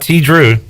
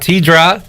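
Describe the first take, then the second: First: The name ends with an 'oo' vowel. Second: The name ends with an 'eye' vowel. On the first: "It's not T Drew" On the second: "It's not T Dry"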